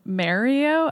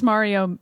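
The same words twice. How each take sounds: First: "Mario" with a New Jersey first vowel; Steve's pronunciation. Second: Said in the usual way. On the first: Retold or imitated. Co-host teases colleague's accent, imitated New Jersey "Mario". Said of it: "I can't even say it the way he does". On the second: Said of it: "He pronounces Mario".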